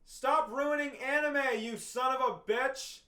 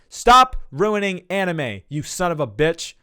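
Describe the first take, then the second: First: It is shouted from far away. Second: It is said close to the listener.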